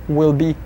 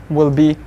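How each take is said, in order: The two takes are said the same way.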